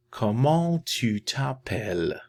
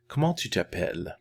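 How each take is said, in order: First: Higher, drawn-out "Comment tu t'appelles"; slow model phrase. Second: Quick, connected "Comment tu t'appelles"; natural-speed repeat. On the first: Teacher models asking someone's name, slow careful French. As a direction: stretch each syllable of "Comment tu t'appelles". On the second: Teacher repeats the question for learners, quick fluent French. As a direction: run "Comment tu t'appelles" together briskly. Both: Shown as a demonstration.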